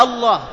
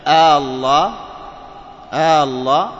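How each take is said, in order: First: Said in the usual way. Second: "الله" loud, opening vowel held long; questioning hamza, lengthened. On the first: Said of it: "هي أصلها". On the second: Shown as a demonstration. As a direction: stretch the first آ of الله as a question. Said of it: "إذن هذا استفهام". ("الله" بمد همزة الاستفهام)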